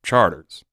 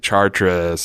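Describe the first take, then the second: First: It is said the local New Orleans way. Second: It is said in the French way.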